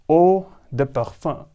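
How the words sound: It has a soft D and a throaty R. "the French pronunciation"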